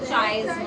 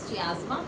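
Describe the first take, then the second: First: The word starts with one sound, chai. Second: The word starts with three sounds, chee-ah. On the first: "नहीं तो चाइस्मा हो जाएगा।" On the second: "I pronounce it as chiasma"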